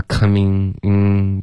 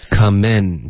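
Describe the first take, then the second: First: "coming in" closed with a back nasal ng; imitating final ng. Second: "Come in" ending on a tongue-tip n; model final n. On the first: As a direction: mimic the wrong ng in "coming in". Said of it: "不能发coming in的这个后鼻音". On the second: Shown as a demonstration. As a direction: demonstrate "Come in" with open eh and firm n. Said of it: "结尾的N的音".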